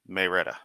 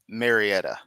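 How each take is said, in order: First: The name is said the local way. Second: The name is said in a non-local way. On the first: This is how residents say it. The speaker calls it right. "It's pronounced by the locals as Marietta" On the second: The speaker is oblivious to local usage. The speaker calls it wrong. "call it Marietta"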